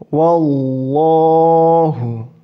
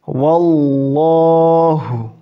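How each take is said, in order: The two takes are said the same way.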